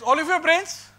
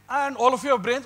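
First: Pushes it up high and loud, rising; louder, higher challenge. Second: A raised, rising demand to the room; loud challenge. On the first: Lecturer repeats the challenge to students: higher, louder challenge. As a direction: hit it harder and higher than before. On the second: Lecturer loudly challenges the audience: loud challenge. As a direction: call them out loudly and rise at the end. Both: Real, not acted.

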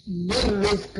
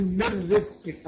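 First: "من رزق" with the ر wrongly rolled several times; over-trill the ر in "من رزق"; wrong repeated R. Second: "من رزق" slowly, with just one clean ر; single-tap R. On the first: Teacher showing students what not to say, "من رزق" with over-trilled ر. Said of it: "ما تقولش إيه؟". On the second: Teacher showing students the correct "من رزق", one single ر. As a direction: say "من رزق" without rolling the ر on. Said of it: "الراء بتخرج راء واحدة بس". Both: Shown as a demonstration.

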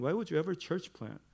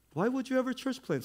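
First: Said in the usual way. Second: Much higher, incredulous mock question; mock disbelief. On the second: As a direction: act shocked anyone would do it.

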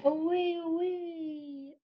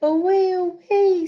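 First: High, softer away, trailing off; soft fading away. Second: High, loud cry of away; loud excited away. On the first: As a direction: let it drift off into the distance. Kite drifting away, read aloud. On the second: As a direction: call it out as the kite flies off. Kite blowing away, read aloud. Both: Acted.

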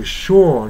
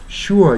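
First: "sure" as a long "shaw"; British-style sure. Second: "sure" as "shoo-er"; two-part "shoo-er" for "sure"; not-British sure. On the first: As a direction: open "sure" to an aw vowel, no r. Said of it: "sureに近く発音する". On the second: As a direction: keep an oo glide in "sure". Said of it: "sureじゃなくてsureに近く". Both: Shown as a demonstration.

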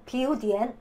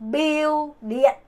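First: 비우 디엔 in plain Korean syllables; wrong toneless reading. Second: Slow 비우 리엔 with Vietnamese tones; correct toned reading. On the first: Teacher shows learners what not to say, Korean-style syllables. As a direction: say 비우 디엔 with a Korean d and no tones. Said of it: "이거 안 돼요". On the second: Teacher models the right way, slow Vietnamese tones. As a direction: draw out 비우, then drop 리엔 as one blended syllable. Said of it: "이거 안 됩니다". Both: Shown as a demonstration.

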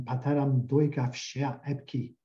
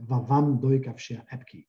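First: "Pateram doika fshea epki" read in Cappadocian Greek with Greek-word "Pateram" for father; the old man's line, "Pateram" not "Vavam"; Cappadocian line as heard. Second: "Vavam doikavshia epki" with Cappadocian "Vavam" for father; correct Cappadocian line. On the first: Retold or imitated. Linguist quotes old man's Cappadocian line, faithful Greek sounds. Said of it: "one of them said a very famous line".

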